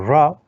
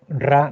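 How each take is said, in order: First: The r is pronounced the English way. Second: The r is pronounced the Spanish way. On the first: The speaker calls it right. "sino que es como ra" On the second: The speaker calls it wrong. "obviamente no se pronuncia como estoy pronunciando yo"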